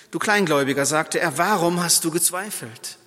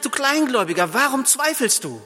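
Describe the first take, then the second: First: Said in the usual way. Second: Kleingläubiger pitched higher and hit hard; Jesus confronting Peter head-on; blunt, direct rebuke. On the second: Acted. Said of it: "sondern direkt". (direkt und scharf, Kleingläubiger betont)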